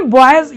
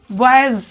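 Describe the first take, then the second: First: Said in the usual way. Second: बॉयज with a long, drawn-out buzzing s at the end; doubled final s. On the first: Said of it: "ये तो बॉयज है ही". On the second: Shown as a demonstration. Teacher showing students a double s, final sound drawn out. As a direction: hold the last s of बॉयज as if doubled. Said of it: "साथ में एक और एस लगा है, तो double एस हो गया".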